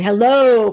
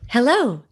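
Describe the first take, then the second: First: It is said in a powerful, confident voice. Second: It is said with a smiling, warm voice.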